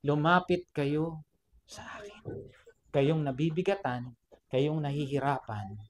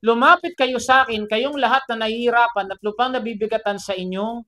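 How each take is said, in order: First: Soft, slow, lowered scripture; gentle invitation. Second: Raised, declaiming quote; proclaiming scripture. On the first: Preacher repeating Jesus' words to the burdened, soft and gentle. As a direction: hush it into a tender call. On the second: Preacher quoting Jesus' invitation to the burdened, proclaiming. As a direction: proclaim it out to the room. Reads Jesus' words aloud forcefully. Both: Retold or imitated.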